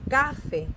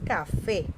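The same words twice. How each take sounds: First: The stress is on the first syllable. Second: The stress is on the second syllable. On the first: The speaker calls it wrong. "No es café" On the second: The speaker calls it right. "no, es café"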